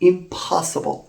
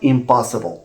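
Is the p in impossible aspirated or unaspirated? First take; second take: aspirated; unaspirated. First: The p is said with a puff of air. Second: The p is said without a puff of air. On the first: The speaker calls it right. "it has to be pronounced with this extra puff of air" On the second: The speaker calls it wrong. "Not impossible"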